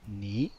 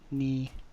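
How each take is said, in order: First: The pitch goes up. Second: The pitch stays level and even. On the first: "second tone goes up" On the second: "the even first tone"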